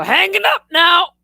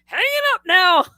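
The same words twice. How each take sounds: First: High, shouted abrupt grandpa voice; mock grandpa shouting goodbye; grandpa's curt sign-off. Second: High, loud abrupt dad voice; mock dad hanging up; dad's curt sign-off. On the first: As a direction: cut the call off like a grumpy old man. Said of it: "he'd go". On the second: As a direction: end the call like a blunt father. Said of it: "when he's, like, done with the conversation".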